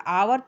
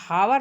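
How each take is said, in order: First: The word begins with a vowel, no h. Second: The word begins with an audible h sound. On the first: The speaker calls it right. "आवर पढ़ाएगा बच्चों। एच silent है।" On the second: The speaker calls it wrong. "यहाँ हावर नहीं पढ़ाएगा"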